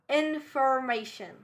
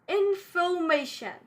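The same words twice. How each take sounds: First: The R after the vowel is pronounced. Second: The R after the vowel is silent. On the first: The speaker calls it wrong. "not information. It's incorrect in British English" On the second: The speaker calls it right. "So we won't pronounce R because it's after the vowel"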